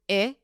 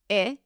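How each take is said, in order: Both takes have the same delivery.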